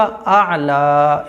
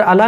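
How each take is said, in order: First: "आला" very slow, with both vowels held; correct pronunciation. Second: Quick, short "अला"; mistaken pronunciation. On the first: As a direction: catch the throat after the first vowel of "आला", then stretch "ला". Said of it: "इस तरह से". ("आला" ऐन के साथ, खींचकर) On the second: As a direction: say "अला" flatly short, no held vowel. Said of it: "अला नहीं होगा". ("अला" छोटा करके) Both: Shown as a demonstration.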